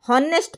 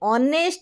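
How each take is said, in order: First: The word starts with an audible h sound. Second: The word starts with a vowel, no h. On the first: The speaker calls it wrong. "ହନେଷ୍ଟ ପଢ଼ାଯାଏନି" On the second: The speaker calls it right. "ଅନରେବୁଲ ଏଠି ଏଚ୍ silent ରହୁଛି"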